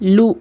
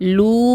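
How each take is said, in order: First: The vowel is short. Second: The vowel is long. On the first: The speaker calls it right. "குறிலா தான் ஊதணும்" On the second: The speaker calls it wrong. "லூ கிடையாது. நெடிலா ஊதக்கூடாது"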